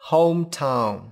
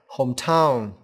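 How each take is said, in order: First: The stress is on the first syllable. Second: The stress is on the second syllable. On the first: The speaker calls it right. "trọng âm rơi vào âm tiết đầu tiên" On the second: The speaker calls it wrong. "không phải âm tiết thứ hai"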